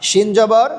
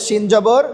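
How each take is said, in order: The two takes are said the same way.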